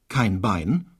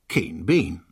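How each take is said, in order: First: The vowels are the diphthong ei. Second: The vowels are a long e sound.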